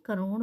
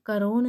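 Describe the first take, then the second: First: करोड़ said with the flapped ड़ at the end; करोड़ ending on the flapped ड़ as the right form; correct करोड़. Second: करोण said with a plain retroflex n at the end, marked wrong; करोण voiced as the mistaken spelling, ending in ण; wrong form करोण. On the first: Teacher gives students the correct करोड़ with a flapped ड़. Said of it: "करोड़ होता है". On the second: Teacher shows students the mistaken करोण, a plain n ending. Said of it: "करोण नहीं". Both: Shown as a demonstration.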